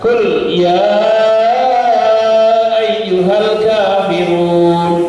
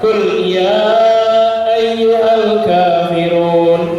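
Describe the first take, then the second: First: The vowel of 'ya' is held for six beats. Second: The vowel of 'ya' is held for four beats. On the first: "lima sampai enam harokat" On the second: "empat harokat"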